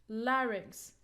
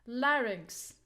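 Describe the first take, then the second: The two takes are said the same way.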